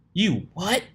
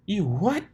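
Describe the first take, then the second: First: High, loud startled yelp; shocked. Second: High, loud startled cry; stunned cry. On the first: Pegasus mare hearing she was cloned, shocked yelp. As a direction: jolt up in disbelief. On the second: Pegasus mare stunned by the news, high cry. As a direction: shriek the question. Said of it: "cried the Pegasus mare, stunned". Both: Acted.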